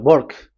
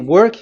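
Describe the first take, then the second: First: The word begins with a B sound. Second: The word begins with a W sound. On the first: "W is pronounced as B" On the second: "if you say work"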